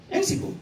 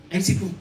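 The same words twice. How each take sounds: First: High, softer "אין סיפור" with the stress on אין; emphatic. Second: Low, settled "אין סיפור" with the weight on אין; low echo. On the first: To the audience, rhetorical punchline "אין סיפור" lifted high on אין. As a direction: lift אין high, then let סיפור drop off quietly. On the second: To the audience, echoing the punchline, "אין סיפור" said low. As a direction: drop the pitch on אין and close the point. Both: Shown as a demonstration. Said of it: "אין סיפור repeated".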